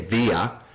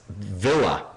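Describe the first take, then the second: First: It is pronounced the Spanish way. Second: It is pronounced the American way. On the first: "you say Villa in Espanol" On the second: "the way Americans pronounce it"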